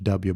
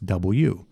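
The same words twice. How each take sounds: First: The letter is said like the casual name-style W. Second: The letter is said with careful, full articulation. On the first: The speaker calls it wrong. "It's not W like George W" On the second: The speaker calls it right. "it's W"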